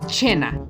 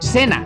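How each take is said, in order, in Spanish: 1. La palabra empieza con un sonido ch. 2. La palabra empieza con un sonido s. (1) "en italiano se lee como cena, porque su C está seguida por una E" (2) "Tú la lees en español como cena"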